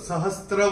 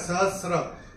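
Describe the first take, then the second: First: The word is said with a t before r. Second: The word is said with no t before r. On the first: The speaker calls it wrong. "हम इसको सहस्त्र बोलते थे। तो सहस्त्र कोई शब्द नहीं होता" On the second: The speaker calls it right. "ये सहस्र है। स पे र की मात्रा है।"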